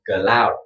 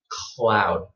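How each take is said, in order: First: An extra vowel separates the k and l sounds. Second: The k and l sounds join with no vowel. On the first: The speaker calls it wrong. "This is a, a Vietnamese uh, accent" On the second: The speaker calls it right. "What you want is to put your tongue before you say, put your tongue up"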